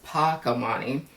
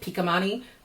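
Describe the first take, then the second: First: The first syllable is said as 'pa'. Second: The first syllable is said as 'pi'. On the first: The speaker calls it right. "but it's Pakamani" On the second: The speaker calls it wrong. "I was saying Pikamani"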